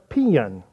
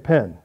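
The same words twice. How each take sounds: First: The word is drawn out into two syllables. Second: The word is said as one syllable. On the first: "you make two syllables out of three letters" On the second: "some of you say pen"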